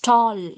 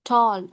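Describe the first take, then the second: First: The vowel is a long rounded 'aw' sound. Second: The same.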